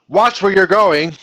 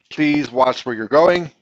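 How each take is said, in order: First: Loud, high, drawn-out warning; strong command. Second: Said in the usual way. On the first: Shown as a demonstration. Teacher showing an imperative with exclamation point, strong loud command. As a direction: order it forcefully with raised pitch and volume. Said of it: "that would be a strong command". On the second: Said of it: "There's a regular old request".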